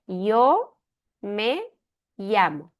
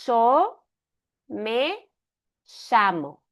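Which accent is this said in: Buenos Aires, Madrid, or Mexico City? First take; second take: Madrid; Buenos Aires. First: It is said in a Madrid accent. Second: It is said in a Buenos Aires accent. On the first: "Em Madrid" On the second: "Um, de Buenos Aires"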